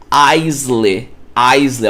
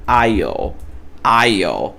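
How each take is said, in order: First: Aisley said as AIS-ley, with an s and a final ley, like it's spelled in Portuguese; Aisley pronounced letter by letter; wrong Brazilian pronunciation. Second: Aisle said like "I'll", silent s, low falling; aisle, no s sound at all; correct English pronunciation. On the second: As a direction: say aisle as one syllable, ail. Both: Shown as a demonstration. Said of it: "você vai pronunciar como".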